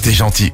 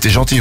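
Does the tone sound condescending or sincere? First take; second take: sincere; condescending. First: It sounds warm and sincerely appreciative. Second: It sounds patronizing, like praising a pet. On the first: The speaker genuinely appreciates the person's kindness. "Tu peux dire le même mot avec un ton" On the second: The speaker treats the person like a pet or child. "si elle te frotte la tête avec sa main"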